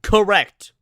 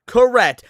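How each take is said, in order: First: Said in the usual way. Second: "Correct." said louder and firmer; emphatic loud "Correct."; louder emphatic agreement. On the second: Real, not acted. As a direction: stamp it down, loud.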